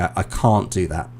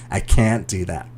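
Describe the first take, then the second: First: It is said in a British accent. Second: It is said in an American accent.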